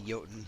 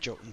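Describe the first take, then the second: First: The word begins with a Y-like sound. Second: The word begins with a hard J sound. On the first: This is the speaker's personal habit. "I still say Jotun" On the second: This is the pronunciation the game settled on. "hard J, Jotun sound"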